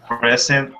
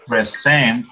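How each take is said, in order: First: "present" as the noun, PRES-ent; weight on PRES in "present"; stress on first syllable. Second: "present" as the verb, pre-SENT; weight on SENT in "present"; stress on second syllable. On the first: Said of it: "I give present". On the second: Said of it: "is the, the verb". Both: Shown as a demonstration.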